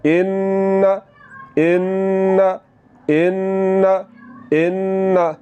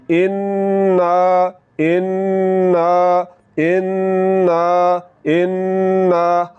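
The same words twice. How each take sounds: First: इन्ना with the nasal n let go at once, short; quick release. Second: इन्ना with the nn held long and slow in the nose; long nasal n. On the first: Quran teacher contrasting the short nasal release. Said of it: "आवाज़ को नाक में ले जाकर फ़ौरन छोड़ देना है". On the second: Quran teacher demonstrating the long nasal hold. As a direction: drag out the nasal n of इन्ना very slowly. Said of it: "आवाज़ को नाक में ले जाकर ... थोड़ा सा लंबा करना है". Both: Shown as a demonstration.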